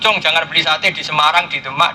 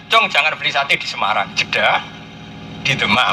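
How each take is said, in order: First: It runs on without a pause after Semarang. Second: There is a clear pause after Semarang. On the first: Buying satay in every place named is forbidden. "Tapi kalau langsung" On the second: Don't buy satay in Semarang, buy it in Demak instead. "Tapi kalau ada Jeddah"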